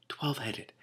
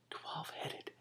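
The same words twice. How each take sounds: First: Higher amazed repeat of "twelve-headed". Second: Awed whisper. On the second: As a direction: breathe out "twelve-headed" in awe. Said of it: "amazed whisper". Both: Real, not acted.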